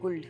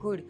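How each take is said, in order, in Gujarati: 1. શબ્દ L ના અવાજ સાથે બોલાય છે. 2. શબ્દ L ના અવાજ વગર બોલાય છે. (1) "લખાય છે કુલ્ડ" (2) "બોલીએ છીએ કુડ"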